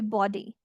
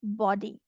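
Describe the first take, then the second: No difference in how they are said.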